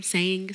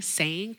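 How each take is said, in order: First: Said in the usual way. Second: SAYING with a light southern drawl, final g dropped; southern accent. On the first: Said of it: "it will go from saying". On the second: Shown as a demonstration.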